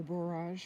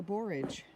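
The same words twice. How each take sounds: First: "borage" with a drawn-out second syllable, like bor-AHZH; alternative pronunciation. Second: Said in the usual way. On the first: Real, not acted. Gardener unsure of the plant's name offers "borage" as bor-AHZH, alternative pronunciation. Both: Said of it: "however you say it".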